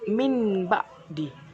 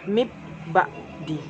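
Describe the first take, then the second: First: The first word ends with an n sound. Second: The first word ends with a b sound. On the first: "bukan min ba'di" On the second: "Dan juga bukan dibaca mib ba'di"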